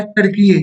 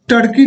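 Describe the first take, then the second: First: "टर्कीये" with an added ye at the end; new pronunciation. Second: "टर्की" ending on a plain ee; old pronunciation. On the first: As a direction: say "टर्कीये" in three syllables, ending in ye. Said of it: "इसको टर्की नहीं". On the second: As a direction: say "टर्की" in two syllables, with no final ye. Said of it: "टर्की नहीं, इसका पहले नाम था". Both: Shown as a demonstration.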